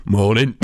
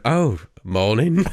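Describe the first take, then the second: First: Casual greeting. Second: A slow, drawn-out "Oh, morning."; slow retold greeting. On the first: Retold or imitated. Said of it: "then he just goes". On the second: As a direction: stretch "Oh, morning" out as if nothing is wrong. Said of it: "he just went".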